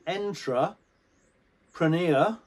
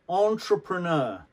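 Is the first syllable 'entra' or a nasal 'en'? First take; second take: entra; nasal en. First: The first syllable is a plain 'entra' sound. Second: The first syllable is a nasal 'en' sound. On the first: The speaker calls it wrong. "instead of entra entra preneur" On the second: The speaker calls it right. "it's the french pronunciation en See, in French, they, they use the nose, en"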